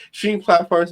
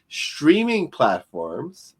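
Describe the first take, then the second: First: Said in the usual way. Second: "streaming" drawn out slowly and set apart; slow, deliberate emphasis on "streaming"; stress on "streaming". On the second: Shown as a demonstration. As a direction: lean hard on "streaming", stretching it slowly. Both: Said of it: "I'm emphasizing the word streaming".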